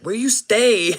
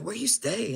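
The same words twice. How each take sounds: First: Loud, higher street voice; street slang. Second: Higher, relaxed street voice; street slang. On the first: Gang member asking where he lives, loud street voice. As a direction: ask it like a homie. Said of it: "he's like". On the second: Gang member asking again, casual street talk. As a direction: repeat it casually as he said it. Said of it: "They really do talk like that". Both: Retold or imitated.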